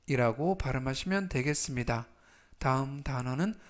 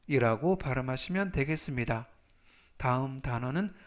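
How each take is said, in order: Both takes have the same delivery.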